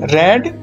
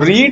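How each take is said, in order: First: The vowel is short, sounding like 'red'. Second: The vowel is long, sounding like 'reed'. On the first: It is the past (second) form. "लेकिन जो इसका उच्चारण है, pronunciation है, वो अलग हुआ करता है" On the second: It is the present (first) form. "उसकी फर्स्ट फॉर्म को हम रीड ही बोला करते हैं"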